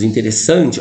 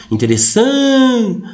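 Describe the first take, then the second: First: Said in the usual way. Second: "Interessante" hailed slowly, stressed SAN stretched way up; calling the word. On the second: Shown as a demonstration. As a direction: call out "Interessante", holding SAN long and high. (chamando "Interessante", com o SAN esticado e agudo) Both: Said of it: "Quando você chama a palavra".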